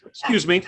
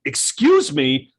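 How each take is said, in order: First: Short, light "excuse me", quick and friendly; a quick courteous "excuse me"; breezy polite "excuse me". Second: Slow, drawn-out "Excuse me" with an edge; a drawn, annoyed "Excuse me". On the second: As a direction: stretch "Excuse me" out like you're irritated. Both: Shown as a demonstration. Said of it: "That's the inflection".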